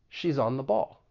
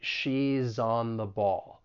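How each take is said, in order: First: It is said at a quicker, faster pace. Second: It is said at a slower, careful pace.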